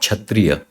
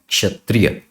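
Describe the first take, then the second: First: The word begins with a ch sound. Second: The word begins with a ksh sound. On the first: The speaker calls it wrong. "it is not kshatriya" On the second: The speaker calls it right. "it is kshatriya"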